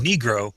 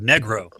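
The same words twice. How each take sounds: First: The word is said with an English pronunciation. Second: The word is said with a Spanish pronunciation. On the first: "the anglicized version" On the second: "the Spanish word negro"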